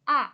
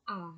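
First: The syllable is said on a falling tone. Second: The syllable is said on a low tone. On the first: "เสียง4 คือเสียงโท" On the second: "เสียง3 เสียงเอก"

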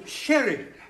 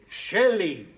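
First: The middle consonant is an R sound. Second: The middle consonant is an L sound. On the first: The speaker calls it right. "No, sherry" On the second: The speaker calls it wrong. "You're saying Shelly"

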